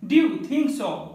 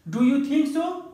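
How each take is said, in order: First: 'Do you' is blended into one short syllable. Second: 'Do you' is said fully as two syllables.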